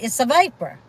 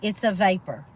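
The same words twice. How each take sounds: First: It is run together with a Southern twang. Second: It is said in a neutral, clearly separated way. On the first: "strung it all together with a little southern twang" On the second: "But I did not say it like that"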